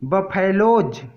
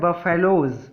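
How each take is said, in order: First: The final z sound is strong and full. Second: The final z sound is soft and light. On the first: The speaker calls it wrong. "जो कि wrong है" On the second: The speaker calls it right. "इसको पढ़ते हैं बफेलोज"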